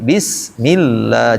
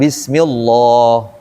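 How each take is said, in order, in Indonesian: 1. Lam dibaca tipis dan ringan. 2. Lam dibaca tebal dan penuh. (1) "tapi bismillah jadi tipis" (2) "Bukan bismillah"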